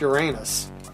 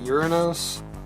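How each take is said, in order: First: The ending sounds like the word 'anus'. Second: The ending does not sound like 'anus'. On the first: "say what you want, it's Uranus. It's their anus" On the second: "some people are trying to pronounce it Uranus, so it doesn't sound like a butthole"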